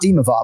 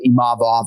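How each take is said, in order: First: The stress is not on the second syllable. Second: The stress is on the second syllable. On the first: The speaker calls it wrong. "and not" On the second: The speaker calls it right. "emphasizing that 2nd syllable"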